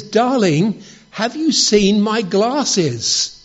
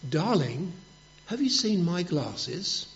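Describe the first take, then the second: First: Higher, louder and slow, drawn-out calling; husband standing right behind his wife, calling loudly and slowly. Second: Soft, hushed question to his wife; husband testing if his wife is deaf, hushed whisper from the door. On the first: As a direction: call it out loud right behind her. Right behind her, loudest try. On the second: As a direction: ask it softly from the doorway, barely above a whisper. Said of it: "and he whispers". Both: Retold or imitated.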